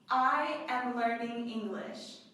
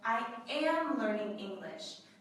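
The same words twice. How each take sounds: First: The stress falls on the word I. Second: The stress falls on the word am. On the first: The speaker, not someone else, is the learner. "The emphasis is on I" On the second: It confirms that the learning is really happening. "This is a confirmation"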